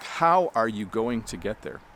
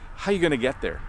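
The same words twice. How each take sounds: First: Said slowly and carefully, every word fully pronounced. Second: Said fast, with words reduced to 'ya' and 'gonna'. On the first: "that's the slow, careful version of the question" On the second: "How would we say it faster? We would actually say this"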